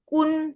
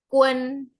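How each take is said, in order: First: It is said without a short e before n. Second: It is said with a short e before n. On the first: The speaker calls it wrong. "bukan kun" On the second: The speaker calls it right. "tapi kuen"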